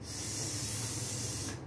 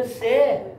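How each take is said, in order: First: Just the hissed س, with no vowel after it; pure consonant sound. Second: Full "e" vowel on سه, no bare hiss; letter with added vowel. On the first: Shown as a demonstration. Teacher models letter sounds for first-grade teachers, س purely hissed. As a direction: say س as a long voiceless hiss. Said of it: "ببینید این تلفظ". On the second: Retold or imitated. Explaining the teacher's mistake, سه voiced with a vowel. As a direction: say سه as a loud, raised syllable "se". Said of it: "چون معلمش گفته سه".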